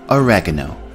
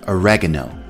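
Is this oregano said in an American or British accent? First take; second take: American; American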